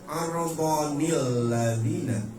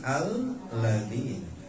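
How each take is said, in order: First: The word is joined to the previous word with 'nil'. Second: The word starts on its own with 'al'. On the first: The previous verse is read on without stopping. "ini mah pengen diwasol, jadi bacanya arbonil ladina" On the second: Reading starts fresh at this verse. "kalau kita mulai dari ayat itu mah al ladina"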